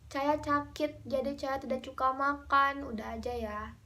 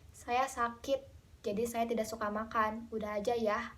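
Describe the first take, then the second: First: It is said in a whiny, attention-seeking tone. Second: It is said in a plain, ordinary tone.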